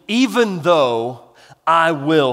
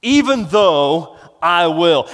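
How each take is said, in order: First: "even though I will" said slowly, leaning on "even"; deliberate slow emphasis; slow stressed phrase. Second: "Even though I will" slow and a bit louder, "Even" stressed; weighty slow restatement; slow emphatic repeat. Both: Shown as a demonstration.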